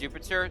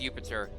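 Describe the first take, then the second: First: The word begins with a J sound. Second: The word begins with a Y sound. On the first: The speaker calls it wrong. "they're wrong" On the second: The speaker calls it right. "It's pronounced Jupiter"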